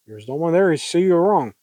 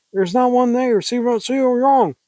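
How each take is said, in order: First: Said in the usual way. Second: High, agitated insistence; high hysterical take. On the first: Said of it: "That was Joel talking". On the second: Acted. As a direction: insist frantically with raised pitch. Acted first take, later redone lower.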